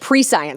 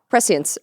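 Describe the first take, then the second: First: The word is split into pre plus science. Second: The word is not split into pre plus science. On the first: The speaker calls it wrong. "and I said pre-science" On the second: The speaker calls it right. "which was uh, prescience"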